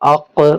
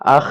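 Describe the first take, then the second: First: It ends in a deep back stop. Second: It ends in a raspy friction sound. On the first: The speaker calls it right. "बल्कि बिल्कुल क़ाफ़ की आवाज़" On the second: The speaker calls it wrong. "इसको ख़ा की तरह भी ना पढ़ें"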